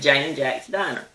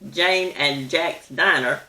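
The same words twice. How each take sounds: First: The word 'and' is reduced to 'n'. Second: The word 'and' is said in full. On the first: The speaker calls it wrong. "We leave out the A and the D and just say the N" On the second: The speaker calls it right. "instead of saying"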